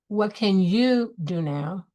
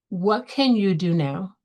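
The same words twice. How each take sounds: First: The stress falls on the word you. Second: The stress falls on the word what. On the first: Focus on what you yourself can own. "on what you can own" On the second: Focus on what the action is. "Focus on the what"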